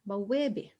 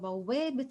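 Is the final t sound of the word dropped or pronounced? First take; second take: dropped; pronounced. First: The word ends without a final t sound. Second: The word ends with a pronounced t sound. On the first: The word stands alone at the end of a phrase. "We kind of stop, we don't pronounce it" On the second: The word is joined to a following noun. "I'm going to pronounce and vocalize the ta"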